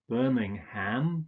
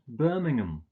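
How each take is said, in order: First: The last syllable is a full 'ham'. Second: The last syllable is a reduced 'um'. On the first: The speaker calls it wrong. "So it's not Birmingham" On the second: The speaker calls it right. "you usually just pronounce it um"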